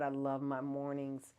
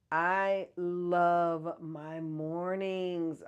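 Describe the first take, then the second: First: Said in the usual way. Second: Swooning over her mornings; dreamy, drawn out. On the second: Shown as a demonstration. Gushing to viewers about loving mornings, slow and dreamy. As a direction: stretch "I love my mornings" very slowly, savoring each word.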